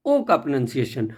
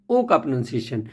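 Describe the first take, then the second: No difference in how they are said.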